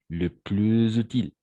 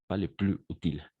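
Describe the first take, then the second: First: Plus links to utile with a z sound. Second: Plus and utile are said without linking. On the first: The speaker calls it right. "on va faire de la même façon une sorte de liaison" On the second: The speaker calls it wrong.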